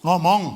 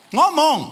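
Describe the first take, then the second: First: Said in the usual way. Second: Much higher, louder Ngomong; louder call. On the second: Real, not acted. Preacher urging couples to speak, loud call.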